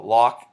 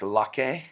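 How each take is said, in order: First: Said in the usual way. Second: Playful mock-French pronunciation, stressed final "ay"; French accent. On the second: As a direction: say "Locke" as if it were French, "lock-AY". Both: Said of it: "French accent".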